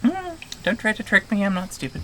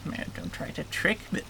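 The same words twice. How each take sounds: First: Game creature voice. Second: Hushed, breath-only creature warning; game creature voice. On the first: Game creature refusing to be tricked, high creature voice. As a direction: pitch it up as a creature nobody fools. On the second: Game creature warning a visitor against tricks, whispered creature voice. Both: Acted. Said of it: "doing that voice".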